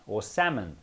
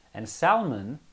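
First: Salmon said like the fish, SAM-on, no L; fish pronunciation. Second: Salmon said with the L, SAL-mon; l pronounced. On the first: Correcting the name for the group, the fish-like SAM-on. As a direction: drop the L in Salmon. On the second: Going on with the story, Salmon with the L. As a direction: settle on Salmon with the L sounded. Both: Shown as a demonstration. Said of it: "they actually pronounce it Salmon".

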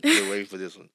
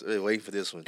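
First: Louder insistent repeat of the line; louder teasing repeat. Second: Said in the usual way. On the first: Real, not acted. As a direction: repeat it much louder, pressing. Host repeats the line to tease co-host.

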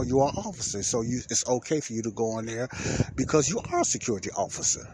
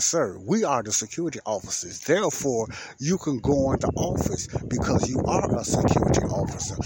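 First: Said in the usual way. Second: Louder, emphatic spelling-it-out delivery; exaggerated explanation. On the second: Explaining to a confused fellow security officer, exaggerated emphasis. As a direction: overdo it, stressing each point to the listener. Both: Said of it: "I didn't say it all the way like that".

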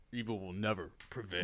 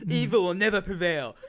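First: Deep, low and quiet hero catchphrase; cool hero voice. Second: Mock hero catchphrase. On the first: Pretend. Hero answering the robbers, low cool voice. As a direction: drop the voice low for a cool superhero line. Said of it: "you have the most coolest voice". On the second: Hero catchphrase, then repeated.

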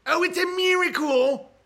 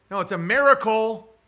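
First: High, loud mock wonder; high exaggerated oh, it's a miracle; hammed-up amazement. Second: Miracle said as meh-ruh-kul, louder; corrected pronunciation. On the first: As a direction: exclaim the miracle in mock awe. Mock exclaiming. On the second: Shown as a demonstration.

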